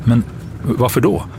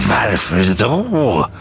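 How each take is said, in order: First: Higher, anxious question; anxious, rising query; worried. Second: Very slow, swooping outraged echo; drawn-out incredulous screech; shrieked. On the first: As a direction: ask uneasily, pitch rising. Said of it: "undrade Halidon oroligt". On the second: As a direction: throw the question back, stretched into a shriek. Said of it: "skrek den grå mannen". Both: A narrator's reading.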